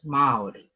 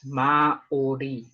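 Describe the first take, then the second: First: The word is said smoothly, sounds run together. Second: The word is said slowly, sounds drawn apart. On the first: "together, in a nice sound" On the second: "if I slow it right down"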